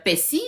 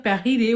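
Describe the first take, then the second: First: Persil with a flat, unrolled French R; persil, plain R, no trill. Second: Persil with a rolled, trilled R. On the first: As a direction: say persil without rolling the R. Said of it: "on roule pas le R". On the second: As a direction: roll the R in persil. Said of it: "eux, ça roule". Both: Shown as a demonstration.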